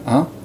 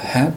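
First: It sounds nasal with almost no h sound. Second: It starts with a clear breathy h sound. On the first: "more nasalized and with a less clear fricative at the beginning" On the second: "so you don't quite go ha"

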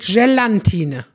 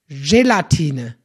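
First: An n sound is added in the middle. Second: There is no n sound in the middle. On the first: The speaker calls it wrong. "Nix mit Gelatine" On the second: The speaker calls it right. "In der Mitte ist kein N"

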